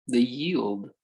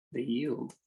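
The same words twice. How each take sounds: First: Said in the usual way. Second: The yield, dropped soft with a light rise; softly repeating to savour the word; soft echo. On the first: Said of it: "repeated phrase, first take". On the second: Shown as a demonstration. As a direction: let "the yield" fall away quietly with a lift at the end. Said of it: "repeated phrase, softer echo".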